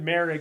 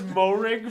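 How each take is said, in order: First: The first syllable sounds like 'merry'. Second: The first syllable sounds like 'more'. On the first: The speaker calls it right. "someone hit me with Merrig, and I was like, wait, that does make sense" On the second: The speaker calls it wrong. "I thought it was Morig for like the whole offseason"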